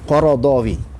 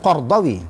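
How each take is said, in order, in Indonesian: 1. Sebuah vokal pendek memisahkan R dan D. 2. R langsung bertemu D. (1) "sebenarnya Qaradawi bacaan yang betulnya" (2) "Orang baca Qardawi"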